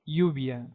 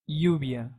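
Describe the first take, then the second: First: The double L sounds like y in yacht. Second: The double L sounds like y in yacht.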